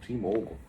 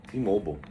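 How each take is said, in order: Both takes have the same delivery.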